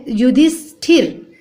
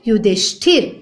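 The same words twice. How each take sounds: First: "युधिष्ठिर" slowly with plain s; s, not sh, in "युधिष्ठिर"; wrong pronunciation. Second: "युधिष्ठिर" with sh before th; full sh in "युधिष्ठिर", rising end; correct sh sound. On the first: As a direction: say "युधिष्ठिर" as yu-dis-thir. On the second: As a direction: say "युधिष्ठिर" as yu-dhish-thir. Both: Shown as a demonstration. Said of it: "जबकि क्या होता है".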